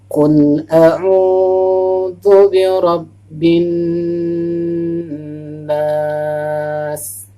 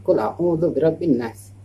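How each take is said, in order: First: It is said slowly with the vowels drawn out. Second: It is said quickly without lengthening the vowels. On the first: The speaker calls it right. "Harus perlahan. ... Nah, seperti itu ya" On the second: The speaker calls it wrong. "jangan qul a'udzu birabbin nas. Bukan bukan seperti itu"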